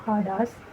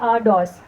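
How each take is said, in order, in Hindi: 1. शब्द साँस वाली 'ह' ध्वनि से शुरू होता है। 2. शब्द सीधे स्वर से शुरू होता है। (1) "हार्ड ब्रीथिंग आ गई, तो अब आ से साउंड चेंज हो गया हा में" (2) "ओमिक्रॉन का आ साउंड होता है"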